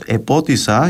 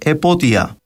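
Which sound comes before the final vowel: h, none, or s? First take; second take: s; none. First: An s sound comes before the final vowel. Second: No consonant comes before the final vowel. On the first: "λέξεις όπως «επότησα»" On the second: "έως και «επότια»"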